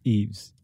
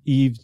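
First: The name ends with an s sound. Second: The name ends without an s sound. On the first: The speaker calls it right. "but it's Eve's" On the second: The speaker calls it wrong. "I didn't pronounce the S on Eve's"

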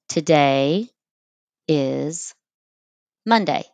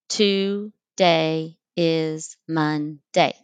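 First: It is split into three separate words. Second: It is split into separate syllables.

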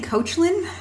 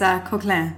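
First: The name is given an English-style pronunciation. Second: The name is given a French-style pronunciation. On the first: The speaker calls it wrong. "We've been saying Coachlin for a long time" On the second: The speaker calls it right. "actually the name is French"

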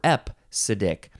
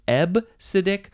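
First: The word has a p sound after the first vowel. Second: The word has a b sound after the first vowel. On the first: The speaker calls it wrong. "I don't know how the P sound got in there" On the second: The speaker calls it right. "ebcidic seems like the more correct way to say this"

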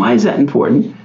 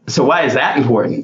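First: The question sounds open and genuinely curious. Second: The question sounds challenging and judgmental. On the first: The asker sincerely wants to understand. The speaker calls it right. "probably my favorite" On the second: The asker is challenging or dismissing the point. The speaker calls it wrong. "your tone could be, ... Wrong tone"

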